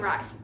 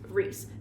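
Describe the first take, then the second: First: The vowel sounds like the one in 'rice'. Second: The vowel sounds like the one in 'piece'. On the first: The speaker calls it wrong. "in my head, I was saying ... Rise" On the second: The speaker calls it right. "but it's Reese"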